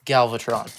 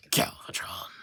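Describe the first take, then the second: First: Voiced, louder dramatic villain name; voiced dramatic villain announcement; better villain voice. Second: Low unvoiced villain whisper; hushed dramatic villain reveal. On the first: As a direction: boom out the villain's name like a reveal. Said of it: "That's a better voice". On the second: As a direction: announce the villain in a dark breathy hush. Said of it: "why did I say that with a voice".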